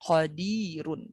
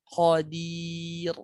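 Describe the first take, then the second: First: The word ends with a vowel and n. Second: The word ends with a plain consonant. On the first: The speaker calls it wrong. "Bukan qadirun" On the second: The speaker calls it right. "dimatikan tanda tanwin unnya menjadi qadir"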